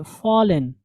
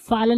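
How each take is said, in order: First: फॉलन with a rounded "aw"; correct FALLEN. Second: फॉलन with an open "aa" vowel; mispronounced FALLEN. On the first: Teacher giving learners the corrected word, फॉलन with rounded aw. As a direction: say फॉलन as "fawlen". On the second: Teacher showing the reading to avoid, फॉलन with aa vowel. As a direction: say फॉलन as "faalen". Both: Shown as a demonstration. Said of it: "फॉलन नहीं".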